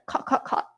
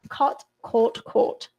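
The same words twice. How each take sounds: First: It is said in a Singapore accent. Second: It is said in an RP accent.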